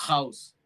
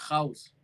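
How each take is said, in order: The two takes are said the same way.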